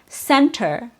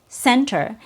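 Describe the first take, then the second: First: The T after the N is fully pronounced. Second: The T after the N is fully pronounced.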